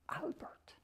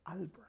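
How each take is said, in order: First: Breathy secret whisper of Albert. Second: Said in the usual way. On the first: Shown as a demonstration. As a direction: hush the name Albert to a whisper. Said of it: "nobody ever called him". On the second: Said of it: "Albert. (whispered retake)".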